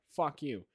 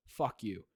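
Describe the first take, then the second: First: Unserious, matter-of-fact delivery; basic sarcastic tone. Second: Lower, blunt delivery; base-voice insult. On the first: Showing a friend how the online voice defuses an insult, casually sarcastic. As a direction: toss it off without real bite. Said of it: "in the most basic tone. You can't take it seriously". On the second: Showing a friend how the normal voice makes sarcasm land seriously, blunt. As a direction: say it plainly so it sounds meant. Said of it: "I switch to my base thing". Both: Shown as a demonstration.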